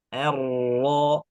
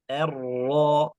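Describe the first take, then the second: The two takes are said the same way.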